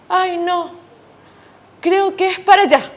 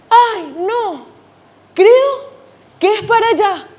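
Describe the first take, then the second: First: Said in the usual way. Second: Higher and louder, creo jumping up; more worried dad. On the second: Acted. Lost dad guessing again, higher and louder. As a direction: fluster the repeat, voice climbing on creo. Dad reads map, second time.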